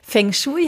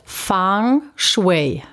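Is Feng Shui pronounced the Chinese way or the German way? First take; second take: German; Chinese. First: It is pronounced the usual German way. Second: It is pronounced the Chinese way.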